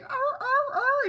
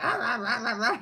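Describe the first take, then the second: First: Very high, loud imitated husky wails; female husky mating cry. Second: Loud, rapid imitated dog barks; male husky mating cry. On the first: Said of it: "she's like". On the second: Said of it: "he's like".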